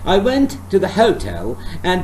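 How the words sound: Only key words are stressed; others are weak. The speaker calls it right. "So there are certain words I have to make them strong"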